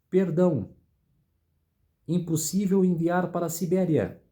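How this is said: The pause comes after the word perdão. Pardon is granted and sending to Siberia is impossible. "Olha a vírgula onde está"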